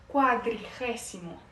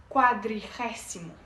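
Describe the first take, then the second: The two takes are said the same way.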